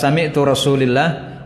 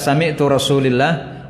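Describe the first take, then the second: First: The vowel after Rasul is an i. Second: The same.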